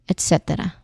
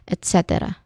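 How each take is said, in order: Both takes have the same delivery.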